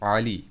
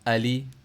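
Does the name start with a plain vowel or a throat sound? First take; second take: throat sound; plain vowel. First: It starts with a tight throat sound. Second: It starts with a plain, open vowel. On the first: This is how it is said with the proper letter. The speaker calls it right. "आइन को आइन आली" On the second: This is how it is said in Urdu. The speaker calls it wrong. "तो उर्दू में हम क्या करते हैं"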